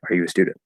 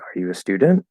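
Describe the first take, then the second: First: It is said flat, without questioning intonation. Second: It is said with a questioning intonation. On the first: The speaker calls it wrong. "not just like" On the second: The speaker calls it right. "when it's a question, it's like"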